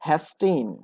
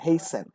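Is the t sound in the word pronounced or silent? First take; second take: pronounced; silent. First: The t sound is clearly pronounced. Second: The t sound is left out.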